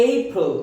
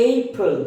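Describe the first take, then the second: The two takes are said the same way.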